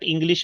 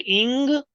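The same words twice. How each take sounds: First: ENGLISH run together as one piece; wrong pronunciation. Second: ENGLISH split as ING-glish; correct pronunciation. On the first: Teacher shows English to avoid, run together. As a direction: say ENGLISH without splitting it. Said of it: "not English". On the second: Teacher corrects English, split after ING. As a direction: ring out ING, pause, then GLISH in ENGLISH. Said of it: "E N sounds as ing". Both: Shown as a demonstration.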